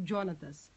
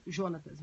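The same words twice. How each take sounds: First: Jonatas opening on a dj sound; hard J pronunciation. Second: Jonatas opening on a plain zh sound; soft J pronunciation. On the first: Teacher guessing at the student's name, hard-J Jonatas. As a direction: say Jonatas as Djonatas, with English-style J. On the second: Teacher offering the other version of the name, soft-J Jonatas. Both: Shown as a demonstration. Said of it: "não sei como se pronuncia o nome dele".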